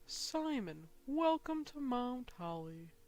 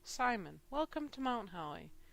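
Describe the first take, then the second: First: It is read in a silly put-on voice. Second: It is read in his normal voice.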